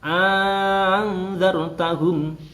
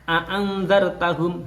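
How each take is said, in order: First: The second glottal stop becomes a long vowel. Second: The second glottal stop is pronounced clearly. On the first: "hamzah yang kedua ... ini diganti alif" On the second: "hamzah dibaca jelas"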